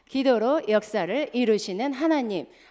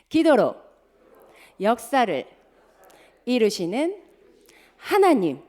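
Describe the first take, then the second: First: It is said very fast. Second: It is said at a normal pace.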